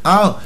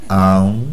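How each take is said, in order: First: Said in the usual way. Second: Much lower, slow chewing grunt; deep lazy chewing noise; mock slow chewing sound. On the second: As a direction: mimic a player chewing lazily. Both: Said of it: "ये चबा रहा धीरे धीरे".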